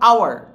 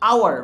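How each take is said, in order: No difference in how they are said.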